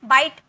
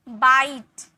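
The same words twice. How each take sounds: First: The vowel is said short and clipped. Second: The vowel is stretched long and pressed. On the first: The speaker calls it wrong. "ऐसे नहीं" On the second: The speaker calls it right. "ई में थोड़ा जोड़ दीजिएगा, थोड़ा pressure दीजिएगा"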